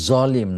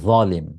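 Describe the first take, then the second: First: The first consonant is a hissing z sound. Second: The first consonant is a th sound. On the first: The speaker calls it wrong. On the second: The speaker calls it right.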